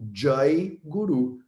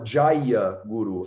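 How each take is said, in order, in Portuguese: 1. A vogal final curta da primeira palavra é omitida. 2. A vogal final curta da primeira palavra é pronunciada. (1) "as pessoas falam Jai Guru" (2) "ninguém fala Jaya Guru"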